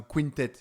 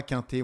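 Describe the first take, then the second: First: "quintet" said English-style, kwin-tet; anglicised "quintet", kwin-TET; correct name pronunciation. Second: "quintet" read the French way, nasal first vowel; French reading of "quintet", no w sound; French-style pronunciation. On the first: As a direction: say "quintet" with a kw and a sounded final t. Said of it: "mais donc c'est un quintet". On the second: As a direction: say "quintet" as French spelling reads, kain-tay. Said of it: "avec mon petit accent, français". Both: Shown as a demonstration.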